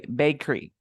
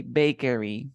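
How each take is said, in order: First: "bakery" in two syllables, bake-ree; corrected pronunciation. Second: "bakery" in three syllables, bay-keh-ree; common mispronunciation. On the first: Teacher corrects the student's word, "bakery" as two syllables. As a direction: drop the middle vowel of "bakery", bake-ree. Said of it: "We say bakery". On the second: Teacher shows how people say it, "bakery" in three syllables. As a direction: put a full middle vowel in "bakery", bay-keh-ree. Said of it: "People say bakery". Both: Shown as a demonstration.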